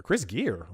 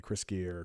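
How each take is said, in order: First: Real disbelief, pitch swinging on the name; incredulous echo. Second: Said in the usual way. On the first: Real, not acted. Host reading a cast list aloud, incredulous. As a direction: repeat the name as if you can't believe it. Reacts to name just read.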